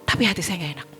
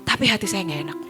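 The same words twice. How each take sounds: Both takes have the same delivery.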